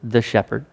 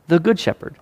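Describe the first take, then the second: First: Said in the usual way. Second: "Good" lifted high above the rest; stress on Good. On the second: Shown as a demonstration. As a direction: punch the word "Good" in "the Good Shepherd". Not just the shepherd.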